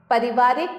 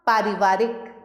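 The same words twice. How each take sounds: First: पारिवारिक with a short first vowel, "pa-ri-vaa-rik"; पारिवारिक said as "puh-ri-VAA-rik"; misspelt short vowel. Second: Said in the usual way. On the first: Shown as a demonstration. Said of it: "अशुद्ध शब्द लिखे हुए". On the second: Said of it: "सामने शुद्ध करके".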